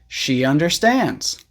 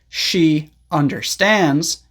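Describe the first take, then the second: First: A small Y sound joins the words. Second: The words are separated with no Y sound. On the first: "this is a very small Y sound" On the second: "instead of saying"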